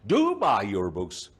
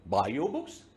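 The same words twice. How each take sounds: First: Slow line with "Do" punched at the start; stress on "Do". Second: Said in the usual way. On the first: Shown as a demonstration. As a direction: hit "Do" hard, then ease off. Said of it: "Now here emphasis is added". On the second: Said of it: "that is a simple statement".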